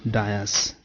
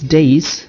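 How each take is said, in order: First: It is said as two syllables, like die-is. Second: It is said as one syllable, like days. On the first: The speaker calls it wrong. "not dais" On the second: The speaker calls it right. "It is days"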